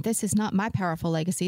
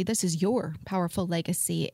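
First: "my" set up for contrast; stress on MY. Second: "your" picked out against the rest; stress on YOUR. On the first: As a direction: lean on "my" as the wrong owner. Contrasts my with your. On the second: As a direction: lean on "your" to hand over ownership. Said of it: "put the emphasis on the word your". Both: Shown as a demonstration.

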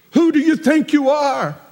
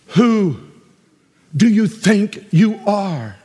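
First: "Who do you think you are?" pitched high with Who stressed; higher challenging question. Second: "Who do you think you are?" said slowly, every word spaced out; slow, drawn question. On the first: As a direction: fire it up high in disbelief. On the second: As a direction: drag out the question. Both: Shown as a demonstration. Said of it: "We could have said it a different way".

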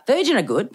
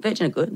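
First: Emphatic praise. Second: Said in the usual way. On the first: Shown as a demonstration.

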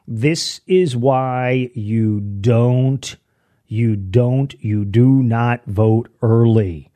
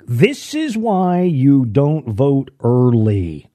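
First: This is why you don't... you do not vote early, drawn out very slowly, do not split apart; very slow repeat. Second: This is why you don't vote early, slow, each word weighted; emphatic warning. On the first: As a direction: spell it out word by word for the slow folks. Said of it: "let me say it again for those people, the slow folks". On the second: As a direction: lay out the warning slowly and firmly. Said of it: "Here's my warning". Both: Shown as a demonstration.

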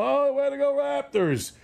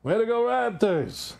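First: High, gushing mock Oprah cheer; lightly hammed-up gushing celebrity praise; imitating Oprah. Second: Mock cheer. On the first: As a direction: gush it like a talk-show host cheering the team. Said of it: "even Oprah". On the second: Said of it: "he said the same thing".

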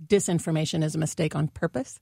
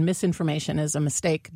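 First: "Disinformation" with the first syllable DIS leaned on, rising at the end; stress on DIS. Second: "Misinformation" with the first syllable MIS leaned on; stress on MIS. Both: Shown as a demonstration. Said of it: "there's a difference between misinformation and disinformation".

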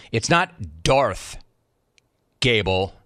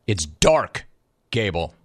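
First: "Darth" drawn out slowly, then a pause before "Gable"; wrong name said slowly. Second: "Dark" said firmly, a pause, then "Gable" dropping low; corrected name, pause. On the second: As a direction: stress "Dark" then let "Gable" fall. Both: Shown as a demonstration.

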